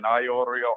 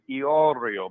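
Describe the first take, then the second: First: The name is said in a less Italian way. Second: The name is said in a more Italian way. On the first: This is not how the name's owner prefers it. The speaker calls it wrong. "than Iorio" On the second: This is how the name's owner prefers it. The speaker calls it right. "she likes her pronunciation Iorio. Maybe that's a little bit more Italian"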